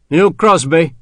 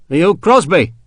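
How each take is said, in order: First: Demanding. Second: Irritated. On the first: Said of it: "the officer demanded". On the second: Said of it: "in an irritated voice". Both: A narrator's reading.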